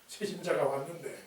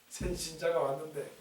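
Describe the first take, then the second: The two takes are said the same way.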